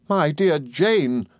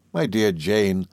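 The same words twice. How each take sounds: First: High, drawn-out cry of alarm; startled cry. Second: Understated, abashed falter; a touch of timid hesitation. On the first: Mother reacting to Miss Murdstone's scream, crying out. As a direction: cry out her name slowly, pitched up. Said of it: "cried my mother". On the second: Mother abashed by the harsh inquiry, faltering. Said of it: "faltered my mother". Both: A narrator's reading.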